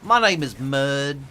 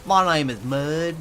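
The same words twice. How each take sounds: First: Slow, drawn-out southern drawl. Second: Slow, drawn-out southern drawl, a touch louder. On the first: Introducing himself to chat in a slow drawl. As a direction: stretch every vowel in a lazy drawl. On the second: Repeating his name to chat in a slow drawl. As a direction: lean into the lazy drawl. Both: Shown as a demonstration. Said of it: "as much of a drawl as I could get".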